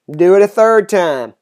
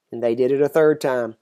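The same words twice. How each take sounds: First: Quoted order, pushed out firmly; firm command. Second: Said in the usual way. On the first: A narrator's reading. Elijah orders the water poured a third time, commanding. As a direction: issue it as an instruction.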